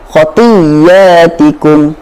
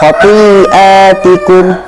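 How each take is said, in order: First: The y sounds merge into one doubled y. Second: It has a glottal stop after the long i. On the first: "kemudian kita idghamkannya" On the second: "hamzah yang berada di tengah-tengah"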